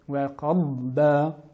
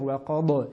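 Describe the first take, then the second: First: The d sound is stretched out longer. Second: The d sound is short and clipped. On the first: The speaker calls it right. "il faut juste étirer la lettre" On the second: The speaker calls it wrong. "ne pas dire wa qad"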